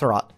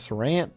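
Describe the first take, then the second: First: No n sound comes before the final t. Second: An n sound comes before the final t. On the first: The speaker calls it right. "So it's Sarat" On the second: The speaker calls it wrong. "it's not Sarant, because it doesn't have an N in it"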